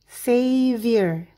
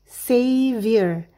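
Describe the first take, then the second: Both takes have the same delivery.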